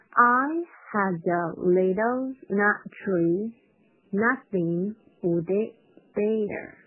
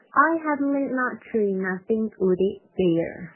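First: Very slow, word-by-word reading; drawn-out, careful model line; slowed-down demo. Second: Line run together more quickly; quicker demo. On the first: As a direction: stretch each word out for learners. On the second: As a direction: read it through in a connected flow. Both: Shown as a demonstration. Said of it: "我同样是先快再慢这块".

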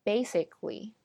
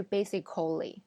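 First: Basically as BAY-sik-lee; basically with k running into "lee"; syllable dropped. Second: Basically as BAY-si-koh-lee; basically in four syllables; wrong full form. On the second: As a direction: sound the "cal" in basically. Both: Shown as a demonstration. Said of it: "而不是basically".

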